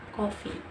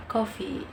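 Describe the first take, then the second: First: Coffee in an Indonesian accent. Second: Coffee in an American accent, falling at the end. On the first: Learner shows how Indonesians pronounce the word, Indonesian accent. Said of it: "And in Indonesian accent". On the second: Learner shows how Americans pronounce the word, American accent. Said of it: "in American accent". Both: Shown as a demonstration.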